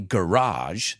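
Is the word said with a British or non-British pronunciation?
non-British. It is said with a non-British pronunciation. "I say garage"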